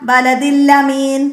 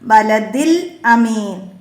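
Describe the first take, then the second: First: The glottal stop is dropped and the l doubled. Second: The glottal stop before amin is clearly pronounced. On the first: The speaker calls it wrong. "ഹംസ നഷ്ടപ്പെടുകയും സുക്കൂനുള്ള അക്ഷരത്തിന് ശദ് വരികയും ചെയ്യും" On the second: The speaker calls it right. "ഹംസകളെ ശ്രദ്ധയോടെ പാരായണം ചെയ്യണം"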